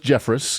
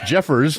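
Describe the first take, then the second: First: The name ends with a 'ress' sound. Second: The name ends with an 'ers' sound. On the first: The speaker calls it wrong. "I got it wrong" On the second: The speaker calls it right. "It's Jeffers, not Jeffress"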